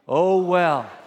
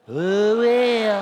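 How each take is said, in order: First: The phrase is said in a plain, neutral way. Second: The phrase is said with a sassy, dismissive attitude. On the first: "Would you practice that with me? Say that with me" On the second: "Everybody with a little attitude"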